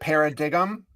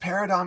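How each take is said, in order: First: The word is said with the g sounded. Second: The word is said with the g silent. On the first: The speaker calls it wrong. "I used to pronounce it paradigm because it's P A R A D I G M" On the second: The speaker calls it right. "it's pronounced paradigm"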